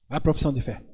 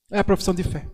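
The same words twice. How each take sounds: First: "profissão" pressed softly, dropping low; quieter repeat. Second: Said in the usual way. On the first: Shown as a demonstration. Priest repeating the key phrase to the faithful, softly stressed. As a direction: say it again, softer, leaning on "profissão".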